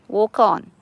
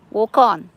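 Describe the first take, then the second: No difference in how they are said.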